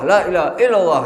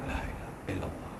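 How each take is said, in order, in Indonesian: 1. Kalimatnya diucapkan dengan keras dan kuat. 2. Kalimatnya diucapkan dengan pelan dan lembut. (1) "Jadi kuat" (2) "pelan-pelan dikirnya"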